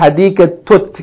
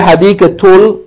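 First: The word ends with a t sound. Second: The word ends with an l sound. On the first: The speaker calls it right. "you say hadikatut. Go right into the ta" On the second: The speaker calls it wrong. "Don't say hadikatul"

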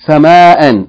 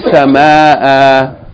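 First: The word ends with an n sound. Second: The word ends with a long a vowel. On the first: Reading continues after the word. "If you keep reading, you pronounce it as a regular tanween" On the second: Reading stops on the word. "Instead of sama'an, you say sama'a"

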